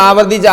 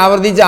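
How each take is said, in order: The two takes are said the same way.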